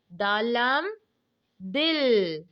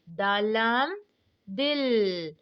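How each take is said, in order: Both takes have the same delivery.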